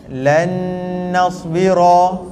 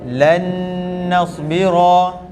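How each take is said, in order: No difference in how they are said.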